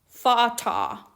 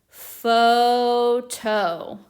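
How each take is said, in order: First: The word is read with short vowel sounds. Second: The word is read with long vowel sounds. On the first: The speaker calls it wrong. "reading it with the short vowel sounds and it doesn't work" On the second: The speaker calls it right. "try the long vowel sound instead"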